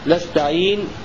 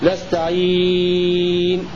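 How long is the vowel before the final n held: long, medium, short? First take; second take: short; long. First: The vowel before the final n is held briefly. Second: The vowel before the final n is held longest. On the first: "قصر" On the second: "وطول"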